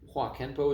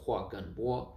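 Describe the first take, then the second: First: The second word starts with a k sound. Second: The second word starts with a g sound. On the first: This is how the name looks when read. "is what it would read as" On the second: This is how the name is actually spoken. "but you'd pronounce it"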